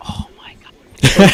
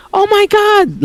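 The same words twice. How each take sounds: First: Slow, whispered exasperation; dismayed whisper. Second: Very high mimicked shriek, volume held back; mock a mom's panicked scream. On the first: Retold or imitated. Family staring at mom in dismay, slow whisper. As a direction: whisper it slowly in disbelief. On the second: Bullies making fun of his mom, mocking scream. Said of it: "making fun of the fact that my mom screamed".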